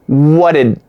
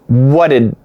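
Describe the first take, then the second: Both takes have the same delivery.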